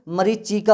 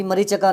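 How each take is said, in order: First: मरीचिका as ma-ree-chi-kaa, slowly; chi sounded. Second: मरीचिका said as ma-ree-cha-ka; wrong a form. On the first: Teacher correcting students, slow मरीचिका with chi. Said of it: "होता है". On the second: Teacher showing the mistake, मरीचिका with cha. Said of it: "नहीं". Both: Shown as a demonstration.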